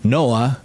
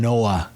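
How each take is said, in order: No difference in how they are said.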